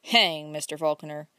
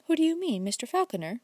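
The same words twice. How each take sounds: First: "Hang" bitten off lower, an impatient little burst. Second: Teasing, coy question with the pitch jumping up on "Who"; provoking. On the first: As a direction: brush the name aside, mildly irritated. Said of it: "repeated Udell impatiently". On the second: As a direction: toss it off with a provoking little smile. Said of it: "with a provoking smile". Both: A narrator's reading.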